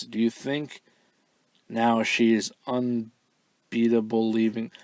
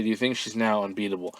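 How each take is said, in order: First: Slow, puzzled reading of "unbeatable leaving"; halting literal read. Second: Quick, smooth "she's now unbeatable"; fluent corrected read. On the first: Host reading a garbled fan question word for word, slow and puzzled. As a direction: stumble through the words as written, slowly. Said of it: "I'm not really sure what this word means". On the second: Host restating what the fan meant, quick and fluent. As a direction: rattle off the fixed question quickly. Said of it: "I'm assuming she meant to say". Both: Shown as a demonstration.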